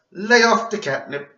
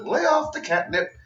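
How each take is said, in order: First: High, loud Cosby-style scolding; mock Cosby lecturing a kid; Bill Cosby impression. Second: High, haughty put-down, upright and cool; lightly voiced Charlotte tossing off a snooty line; imitating Charlotte. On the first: Vlogger redoes Charlotte's line as Bill Cosby. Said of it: "Like she was Bill Cosby". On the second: Vlogger quotes Charlotte's put-down, imitating her haughty tone. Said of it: "the way that Charlotte said it".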